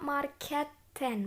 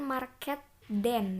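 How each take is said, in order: First: The suffix starts with a t sound. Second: The suffix starts with a d sound. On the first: The speaker calls it right. "Ezra Marketten, bukan Market Den ya" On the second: The speaker calls it wrong. "bukan Market Den ya"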